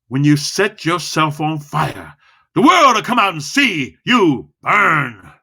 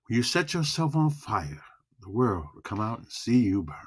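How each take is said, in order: First: Slow, then high and loud on "world"; slow, weighty build to a loud finish. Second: Soft, low, emotional line; soft, slow, low delivery. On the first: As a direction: lean hard on every word, slowly. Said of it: "Loud and slow". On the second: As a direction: hush it down, let it land. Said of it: "we got low and slow". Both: Shown as a demonstration.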